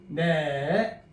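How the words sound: The pitch dips and then turns slightly up. The listener has understood. "끄트머리 약간 쳐줘야 돼요. 낚시 모양을 생각하세요"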